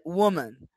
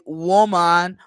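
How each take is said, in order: First: The second vowel is a schwa. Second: The second vowel is a full vowel. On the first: The speaker calls it right. "it's like woman. ... this case is the schwa" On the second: The speaker calls it wrong. "it's not like woman"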